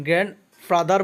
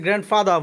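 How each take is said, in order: First: গ্র্যান্ডফাদার ending in a sounded R, "fadar"; old pronunciation with R. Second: গ্র্যান্ডফাদার ending "fada", R silent; new pronunciation without R. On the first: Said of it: "গ্র্যান্ডফাদার বলতাম". (গ্র্যান্ডফাদার, শেষের র উচ্চারণ করে) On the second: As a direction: drop the final R of গ্র্যান্ডফাদার. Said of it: "এখন থেকে এটাকে গ্র্যান্ডফাদার বলবো". (গ্র্যান্ডফাদার, শেষের র ছাড়া "ফাদা") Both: Shown as a demonstration.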